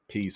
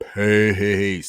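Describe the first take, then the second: First: A quick, offhand sign-off, not meant sincerely. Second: A heartfelt sign-off, said with real sincerity.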